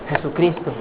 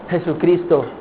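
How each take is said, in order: Both takes have the same delivery.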